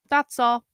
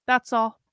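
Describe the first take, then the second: No difference in how they are said.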